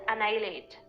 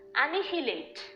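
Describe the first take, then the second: First: The h sound in the middle is silent. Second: The h sound in the middle is pronounced. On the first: The speaker calls it right. "that H is silent here, and we pronounce this word as annihilate" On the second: The speaker calls it wrong. "normally people tend to pronounce this word as annihilate"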